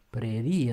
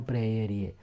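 First: Prerie with a single short e; correct Prerie. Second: Preerie with a doubled e; wrong preerie. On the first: Teacher contrasts with the mistake, Prerie in three syllables. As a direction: say 'pre-RI-e' for Prerie. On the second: Teacher shows the mistake, preerie with an extra syllable. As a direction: say 'pre-E-rie', splitting the vowel in preerie. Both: Shown as a demonstration. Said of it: "nu preerie".

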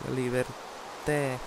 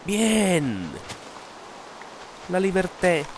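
First: Slow savoring. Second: Excited exclaim. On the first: Repeats slowly, dreamily. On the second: Exclaims after escaping. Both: Acted.

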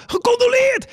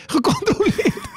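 First: High shouted call from the crowd; audience shout. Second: Slow, high call breaking into laughter; laughing call. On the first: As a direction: call it out from the back of the hall, pitched way up. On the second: Audience member calls condolences again, slow and laughing. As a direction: draw it out, laughing as you shout. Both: Retold or imitated. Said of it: "begonnen mensen te schreeuwen uit de zaal".

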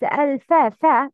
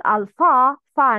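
First: الفا with a front "a", as "fae"; light sound. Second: الفا with a dark back "aa"; heavy sound. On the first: Teacher correcting learners, light "a" in الفا. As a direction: keep فا thin and light. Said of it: "pronounce with light sound". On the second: Teacher showing the mistake, heavy "a" in الفا. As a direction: make فا thick, as "faw". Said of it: "No, not heavy". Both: Shown as a demonstration.

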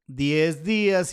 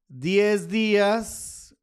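First: A little slow, settling on the words; finishing the dictation. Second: Very slow, each word stretched out; slow dictation while writing. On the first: Confirming the label to viewers, a bit slow. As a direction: say it as the writing ends. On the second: Writing on the chart for viewers, slowly drawn out. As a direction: draw the words out as you write them on the chart. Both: Real, not acted. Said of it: "y ahí dice diez días".

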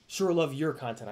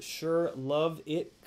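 First: Said in the usual way. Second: Sure love it read very slowly, word by word; slow drawn reading. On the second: Shown as a demonstration. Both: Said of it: "Content or content".

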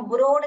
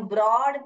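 First: ब्रोड with a long closed "o" as in road; teacher shows the wrong ब्रोड, closed o. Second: ब्रॉड with an open "aw" vowel as in broad; right way. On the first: Teacher shows students the mispronounced ब्रोड, closed o. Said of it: "नहीं, हम ब्रोड नहीं बोलते हैं". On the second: Teacher gives students the correct ब्रॉड, open aw. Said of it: "हम ब्रॉड बोलते हैं". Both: Shown as a demonstration.

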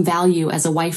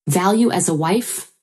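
First: Said in the usual way. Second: Mildly incredulous echo, rising into a question; shocked echo. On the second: A narrator's reading. Wife throws her husband's words back, shocked. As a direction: repeat it as a disbelieving question. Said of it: "I was shocked".

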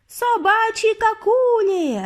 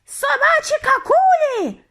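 First: High, drawn-out crowd shriek; frenzied witch screech; screaming. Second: Very high, loud witch screech; shrieking alarm, drawn out. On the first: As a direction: yell it long and high in frenzy. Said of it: "репетували вони". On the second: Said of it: "заверещала вона". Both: A narrator's reading.

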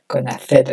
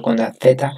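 First: Said in the usual way. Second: "Z" said with a lisped th sound, theta; Castilian Z. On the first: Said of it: "en vez de con la Z". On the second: Shown as a demonstration. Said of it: "voy a comenzar hablando con la Z". (la "Z" pronunciada como zeta castellana, con θ)

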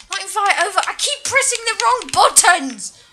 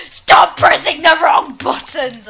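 First: Exasperated. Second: Loud, drawn-out frustrated shout; screaming at self. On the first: Frustrated at pressing wrong buttons. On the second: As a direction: yell at yourself, stretching the words. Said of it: "I'm screaming at myself now". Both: Real, not acted.

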